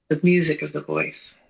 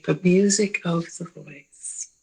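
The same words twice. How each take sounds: First: Said in the usual way. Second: The music of the voice, slow, with weight on "music" and a falling end; slow and deliberate, stressing "music"; slowed restatement. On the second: Shown as a demonstration. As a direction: lean on "music" and let it fall.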